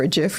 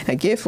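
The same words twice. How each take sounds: First: "gif" with a soft G. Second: "gif" with a hard G. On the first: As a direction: say "gif" like "jif", with a J sound. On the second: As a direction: say "gif" with G as in gift. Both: Shown as a demonstration. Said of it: "whichever you want to pronounce it".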